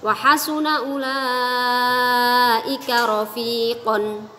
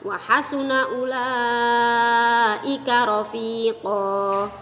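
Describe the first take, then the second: First: The last word ends with an added 'n' sound. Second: The last word ends on a bare vowel. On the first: The phrase is read as continuing on. "yang pertama di wasol" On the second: The phrase is read as a stopping point. "yang kedua di waqaf"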